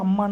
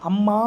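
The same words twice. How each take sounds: First: The word is said with a normal short ending. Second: The final vowel is stretched out long. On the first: "நார்மலாக அம்மான்னு சொல்லணும்" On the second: "நீண்டு தான் நம்ம வந்து ஒலிக்கிறோம்"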